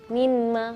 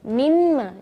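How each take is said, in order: First: The n is pronounced clearly before the m. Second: The n merges fully into a doubled m. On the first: The speaker calls it wrong. "minma bukan" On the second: The speaker calls it right. "tapi mimma"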